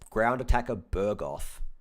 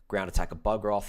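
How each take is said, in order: First: The last word is said as Burgoth. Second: The last word is said as Bugroth. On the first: The speaker calls it wrong. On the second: The speaker calls it right.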